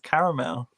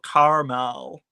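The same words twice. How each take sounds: First: It is said in the speaker's own British accent. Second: It is said imitating the listener's North American accent.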